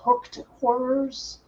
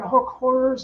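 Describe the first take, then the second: First: The first word ends with a 't' sound. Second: The first word ends without a 't' sound. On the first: The speaker calls it wrong. "not hooked horrors" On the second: The speaker calls it right. "they're hook horrors"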